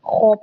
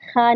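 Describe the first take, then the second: First: The sound is heavy and thick, with a full mouth. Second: The sound is light and thin, with an open vowel. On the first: The speaker calls it right. "मोटा करके इसको पढ़ते हैं, खौ पढ़ते हैं" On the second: The speaker calls it wrong. "ख़ा नहीं पढ़ते"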